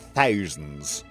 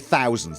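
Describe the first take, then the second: First: It is said in an old-fashioned posh accent. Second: It is said in an everyday modern accent. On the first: "they said thousands" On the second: "they didn't say thousands"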